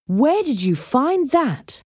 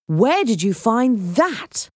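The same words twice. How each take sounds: First: High, slow demand in disbelief; indignant astonishment, stretched out; incredulous. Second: Slow, higher question full of wonder; amazed. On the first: Jake sees the treasure he wanted, incredulous. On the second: Assistant asks Heather about the statue, amazed. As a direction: marvel at it, stretching the words. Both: Acted.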